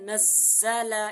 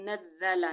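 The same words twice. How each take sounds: First: The doubled consonant is a buzzing z sound. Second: The doubled consonant is a soft th sound. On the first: The speaker calls it right. "इधर इसका मखरज है नज़्ज़ला, इसकी अदायगी है" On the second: The speaker calls it wrong. "नरमी से, तो ये मैंने इधर जाल पढ़ लिया, ये मैंने गलती की है"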